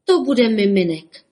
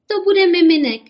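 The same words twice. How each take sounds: First: Amazed. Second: High, loud jubilant cry; joyful cheer. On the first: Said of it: "žasl Bobek". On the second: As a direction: cheer it out like happy mothers. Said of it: "jásaly maminky". (jásavé zvolání) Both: A narrator's reading.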